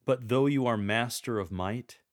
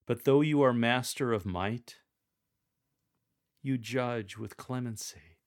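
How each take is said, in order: First: "But though you are master of might" strong and louder. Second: Strong and louder opening. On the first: Coach modelling the verse, strong tone. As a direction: proclaim the might firmly. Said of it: "Use a strong tone of voice for". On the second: Reader proclaiming God's might, strong tone. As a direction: say it with strength. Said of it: "Use a strong tone of voice". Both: Shown as a demonstration.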